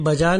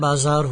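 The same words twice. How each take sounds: First: The middle consonant is a plain 'j' sound. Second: The middle consonant is a buzzing 'z' sound. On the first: The speaker calls it wrong. "नहीं होता है" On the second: The speaker calls it right. "होता है"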